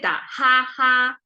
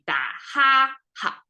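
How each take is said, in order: First: The final syllable carries a full, even tone. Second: The final syllable is short, light and unstressed. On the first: The speaker calls it wrong. "It sounds flat and bookish" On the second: The speaker calls it right. "ha is short and light at the same time"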